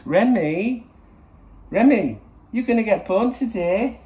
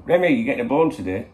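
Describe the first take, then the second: First: High, loud, sing-song dog voice; funny voice. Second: Said in the usual way. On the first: Shown as a demonstration. Owner calling his dog in a high, excited funny voice. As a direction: squeal it to get the dog excited. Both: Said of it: "If I do it in a funny voice".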